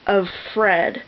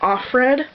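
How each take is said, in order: First: The name sounds like of followed by Fred. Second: The name sounds like off followed by red. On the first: The speaker calls it right. "So her name is of Fred" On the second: The speaker calls it wrong. "I had pronounced it Offred"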